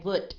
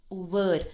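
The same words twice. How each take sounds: First: Would ending in a crisp t, like "woot"; would with a voiceless t for the d; wrong T ending. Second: Would with a longer, voiced d at the end; Would ending on d, not t. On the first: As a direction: cut "would" off with a t. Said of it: "not a T sound". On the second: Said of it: "a longer sound at the end". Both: Shown as a demonstration.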